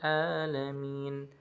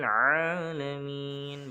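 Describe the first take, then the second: First: It starts with a plain glottal stop. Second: It starts with a tight pharyngeal throat sound. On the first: The speaker calls it wrong. "ada yang membaca huruf menggunakan huruf hamzah" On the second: The speaker calls it right. "Menggunakan huruf ain"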